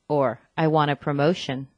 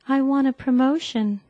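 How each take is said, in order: First: The voice is deeper and more confident. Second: The voice is higher and less confident. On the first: The speaker calls it right. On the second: The speaker calls it wrong.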